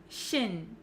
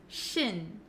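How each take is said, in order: First: The ending has a short unrounded vowel. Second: The ending has a short unrounded vowel.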